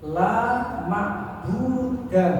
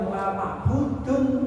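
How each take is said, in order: First: The last word ends with a short "a" sound. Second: The last word ends with an "un" sound. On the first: There is absolutely no object of worship at all. The speaker calls it right. "dalam bahasa tauhid la ma'buda" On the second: There is no single particular object of worship. The speaker calls it wrong. "bukan la ma'budun"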